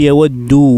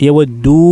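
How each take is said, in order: No difference in how they are said.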